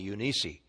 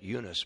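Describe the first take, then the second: First: The name has its original Greek pronunciation. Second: The name has its usual American English pronunciation. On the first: "it's literally Eunice in the Greek" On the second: "in the United States of America, we pronounce that Eunice"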